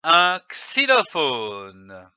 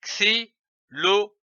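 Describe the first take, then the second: First: "xylophone" joined up, slow, long falling ending; whole word. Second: "xylophone" split into four separate syllables. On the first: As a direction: blend "xylophone" into one drawn-out word. (« xylophone » d'un seul tenant, finale allongée) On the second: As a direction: sound out "xylophone" with a gap after each syllable. (« xylophone » syllabe par syllabe, bien détachées) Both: Shown as a demonstration. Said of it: "L'association de ces syllabes donne".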